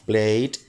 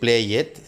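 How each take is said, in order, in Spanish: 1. La terminación es solo un sonido D. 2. La terminación se dice como una sílaba extra. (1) "al sonido normal le vamos a agregar la D" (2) "No vamos a decir play it, sería un error"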